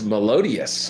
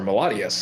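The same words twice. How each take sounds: First: "Melodious" drawn out slowly, pitched up; first pronunciation guess. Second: "Melodious" offered as a second reading, at normal pitch; alternative pronunciation. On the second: Offering another reading of a track title, "Melodious" quicker, unemphatic. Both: Shown as a demonstration. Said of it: "however you pronounce it".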